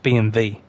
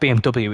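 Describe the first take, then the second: First: The last letter is said as 'vee'. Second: The last letter is said as 'double-u'.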